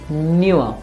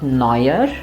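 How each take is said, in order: First: The last syllable sounds like 'newer'. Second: The last syllable sounds like 'noyer'. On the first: The speaker calls it right. "rather it is newer. Like the English word new" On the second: The speaker calls it wrong. "the last part is not neuer"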